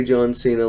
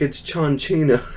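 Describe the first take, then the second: First: Said in the usual way. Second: "John Cena" said as "Jont Shina", with a hissed "sh" in "Cena"; Santino-style mispronunciation. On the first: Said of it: "I don't say him right". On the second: Retold or imitated. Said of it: "mispronounce everyone's names".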